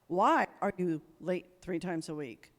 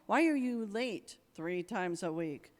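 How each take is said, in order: First: It is said in an accusing, annoyed tone. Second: It is said in a caring, concerned tone.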